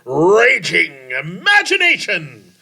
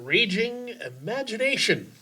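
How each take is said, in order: First: It is said in a put-on dramatic voice. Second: It is said in his ordinary voice.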